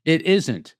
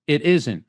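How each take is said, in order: First: Said in the usual way. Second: Whispered, no voice at all; hushed aside whisper. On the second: Shown as a demonstration. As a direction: breathe the words out in a whisper. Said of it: "unvoiced whisper".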